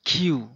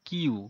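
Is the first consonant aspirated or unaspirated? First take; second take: aspirated; unaspirated. First: The k has a puff of air after it. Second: The k has no puff of air after it. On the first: The speaker calls it right. "কিন্তু এটির উচ্চারণ হবে খিউ" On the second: The speaker calls it wrong. "যেটাকে আমরা কিউ বলি"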